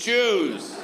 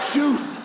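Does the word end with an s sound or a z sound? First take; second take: z sound; s sound. First: The word ends with a buzzing z sound. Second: The word ends with a hissing s sound. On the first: The speaker calls it wrong. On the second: The speaker calls it right.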